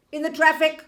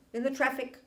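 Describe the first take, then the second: First: "in the traffic" louder and higher; emphatic repeat. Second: Said in the usual way. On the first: Shown as a demonstration. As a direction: hit "in the traffic" hard, loud and high. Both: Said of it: "hear it, wait".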